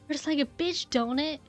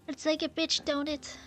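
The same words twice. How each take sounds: First: It is said in the speaker's normal voice. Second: It is said in a put-on old woman voice. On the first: The speaker calls it wrong. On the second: The speaker calls it right.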